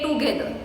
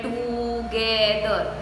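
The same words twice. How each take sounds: First: Said in the usual way. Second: "together" stretched slowly as to-ge-ther; divided into syllables. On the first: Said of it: "when we say it". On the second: Shown as a demonstration. Teacher contrasting with normal speech, "together" slowly divided. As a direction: draw out every syllable of "together". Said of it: "We don't divide it".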